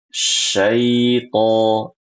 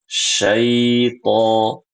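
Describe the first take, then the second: No difference in how they are said.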